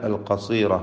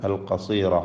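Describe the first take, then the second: No difference in how they are said.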